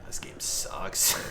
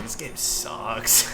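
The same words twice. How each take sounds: First: Slow whispered "This game sucks"; whispering. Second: Slow, stretched "This game sucks" in full voice; drawn-out groan. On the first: Acted. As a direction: breathe "This game sucks" out slowly. Muttered catchphrase. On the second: Retold or imitated. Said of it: "the number one thing me and Kazi would say".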